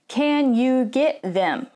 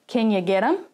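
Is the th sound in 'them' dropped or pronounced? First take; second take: pronounced; dropped. First: The words are full, with the th pronounced. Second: The words are reduced, with the th dropped. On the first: The speaker calls it wrong. "I'm not going to say" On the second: The speaker calls it right. "I'm going to shorten and reduce"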